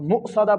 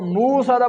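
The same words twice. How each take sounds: First: A sharp glottal catch follows the first syllable. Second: The first syllable flows smoothly without a catch. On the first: The speaker calls it right. "हमजा साकिन को झटका लगाकर पढ़ते हैं" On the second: The speaker calls it wrong. "मुसौदा पढ़ना गलत है"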